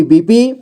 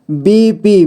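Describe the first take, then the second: First: Said in the usual way. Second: बीपी drawn out as बी-पी; syllable by syllable. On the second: Shown as a demonstration. Teacher showing beginners how to read बीपी, syllable by syllable. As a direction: give each half of बीपी its own beat. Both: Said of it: "जोड़ जोड़ करके ही पढ़ना होगा".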